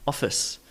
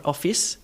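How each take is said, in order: First: Office with the second vowel reduced to uh; office, weak relaxed second syllable; schwa ending. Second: Office with a clear short i in the second syllable; office, ending in a full "iss"; full second vowel. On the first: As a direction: say office as OFF-uhs. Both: Shown as a demonstration. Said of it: "not office".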